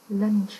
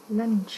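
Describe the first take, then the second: No difference in how they are said.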